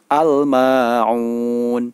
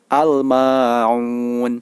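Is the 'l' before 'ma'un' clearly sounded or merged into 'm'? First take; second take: clear; clear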